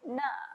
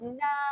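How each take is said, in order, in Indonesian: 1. Vokalnya pendek, ditahan selama satu ketukan. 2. Vokalnya ditahan selama dua ketukan. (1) "nun nganga bunyinya ialah na" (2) "Panjangkan dua harakat"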